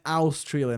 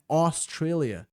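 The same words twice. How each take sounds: First: The first vowel sounds like 'ow'. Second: The first vowel sounds like 'oh'. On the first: The speaker calls it wrong. "Não é Australia" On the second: The speaker calls it right. "A U em inglês sempre tem som de O"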